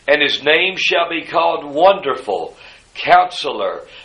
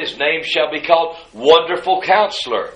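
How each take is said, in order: First: There is a pause after Wonderful. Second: Wonderful runs straight into Counselor.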